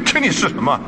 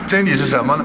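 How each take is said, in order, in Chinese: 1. 听起来轻蔑又不屑。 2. 听起来谦虚，真心在请教。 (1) "一种藐视的口气" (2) "好像以为他很谦虚了，来请教啊"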